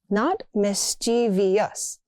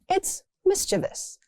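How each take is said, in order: First: The word has an extra fourth syllable. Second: The word has only three syllables. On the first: The speaker calls it wrong. "People add an extra syllable" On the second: The speaker calls it right.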